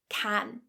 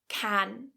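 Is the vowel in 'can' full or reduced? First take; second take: full; full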